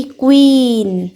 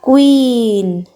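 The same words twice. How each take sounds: First: क्वीन said slowly and clearly as kween; example word spoken. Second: क्वीन stretched out even slower, kweeen, long ee held; slow repeat. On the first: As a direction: spell out the sound of क्वीन, long ee, unhurried. (क्वीन को धीरे और साफ़ बोलना) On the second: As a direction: drag out क्वीन so students hear the long ee. (क्वीन को और भी धीरे, लंबी ई खींचकर) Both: Shown as a demonstration. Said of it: "जैसे कि क्वीन".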